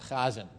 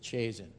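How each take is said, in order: First: The name is said with a Jewish pronunciation. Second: The name is said with a non-Jewish pronunciation.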